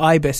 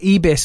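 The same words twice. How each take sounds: First: It is said with a British accent. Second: It is said with a French accent.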